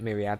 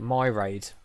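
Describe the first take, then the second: First: The word ends with a 'ree-ad' sound. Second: The word ends with a 'raid' sound. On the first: The speaker calls it right. "not call it Myriad" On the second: The speaker calls it wrong. "I used to call it Myraid"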